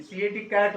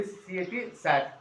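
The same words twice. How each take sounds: First: कैट with a clear k sound; correct reading. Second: सैट with an s sound, mimicking the child's mistake; imitating wrong reading. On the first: Shown as a demonstration. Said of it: "सीएटी कैट होता है". (सही उच्चारण, कैट को क से बोलते हुए) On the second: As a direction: say सैट instead of कैट, like the pupil did. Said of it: "ऐसा नहीं होता है बेटा अंजलि". (बच्ची की गलती की नकल, सैट बोलते हुए)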